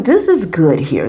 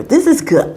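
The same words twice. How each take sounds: First: Said in the usual way. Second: Said up high, savoring it; a delighted higher echo; pitched-up praise; high emphatic repeat. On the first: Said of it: "repeats the verdict". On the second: Real, not acted. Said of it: "repeats it higher".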